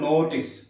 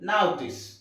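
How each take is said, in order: First: The first vowel is a pure, steady o. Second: The first vowel glides from o toward u. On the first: The speaker calls it wrong. "It's not నోటీస్" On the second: The speaker calls it right. "పలకాల్సిన విధానం plus ఉ"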